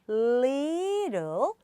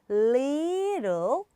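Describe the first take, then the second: No difference in how they are said.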